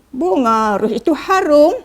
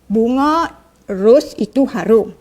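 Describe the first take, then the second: First: The voice rises at the end. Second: The voice falls at the end. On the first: It asks a question. "ayat tanya" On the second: It states a fact. "ayat penyata"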